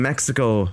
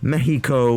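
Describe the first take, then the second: First: It is said with plain English pronunciation. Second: It is said with Spanish-style pronunciation.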